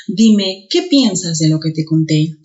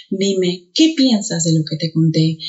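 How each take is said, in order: First: Qué said stronger; stress on qué. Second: Said in the usual way. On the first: Shown as a demonstration. Teacher demonstrating stressed qué. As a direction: hit qué. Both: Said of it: "El primero suena más".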